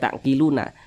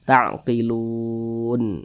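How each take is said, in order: First: The word ends with a final vowel after n. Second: The word ends on n with no vowel. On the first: The speaker calls it wrong. "jangan dibaca ta'qiluna" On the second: The speaker calls it right. "tapi dibaca ta'qilun"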